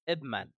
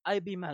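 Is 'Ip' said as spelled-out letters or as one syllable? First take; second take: one syllable; letters. First: The first part is said as one syllable. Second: The first part is spelled out as two letters. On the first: The speaker calls it right. "ترى مو باي بي" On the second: The speaker calls it wrong. "تقول هذا اي بي مان"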